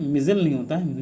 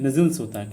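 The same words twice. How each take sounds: First: मिजल said without the final s, as the wrong form; teacher voicing the mistake मिजल, ending on l. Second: मिजल्स said with a clear final s; correct form. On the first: Teacher shows students the wrong form: मिजल said without final s. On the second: Teacher gives students the correct form: मिजल्स with a clear final s. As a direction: stress the s at the end of मिजल्स. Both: Shown as a demonstration.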